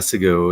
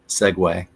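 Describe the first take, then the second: First: The word ends with a 'goo' sound. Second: The word ends with a 'gway' sound. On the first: The speaker calls it wrong. "it's not a Segu" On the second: The speaker calls it right. "it's Segway"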